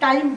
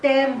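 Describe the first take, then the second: First: It is said with the standard English pronunciation. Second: It is said with the local Kumaoni pronunciation. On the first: "English का शब्द है टाइम बोलते हैं" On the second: "हमारे उच्चारण में वो शब्द क्या हो जाता है"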